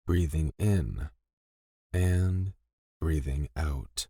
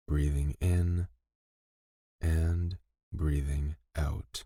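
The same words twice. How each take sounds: The two takes are said the same way.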